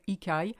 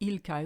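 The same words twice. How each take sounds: First: The L of the first word is dropped. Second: The L of the first word is pronounced. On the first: The speaker calls it right. "we say il caille. ... we don't even say the L of il" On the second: The speaker calls it wrong. "We don't say il caille"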